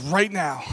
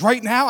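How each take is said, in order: First: RIGHT NOW at normal pitch, falling; firm answer. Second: RIGHT NOW as a higher, louder rising question. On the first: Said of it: "I said". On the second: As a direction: throw back "Right now?" with NOW lifted high. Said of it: "She goes". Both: Retold or imitated.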